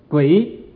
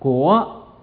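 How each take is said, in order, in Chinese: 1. 这个字读 gui 音。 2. 这个字读 guo 音。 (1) "这山东人就读成什么呢，读成鬼" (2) "国语就说国啊"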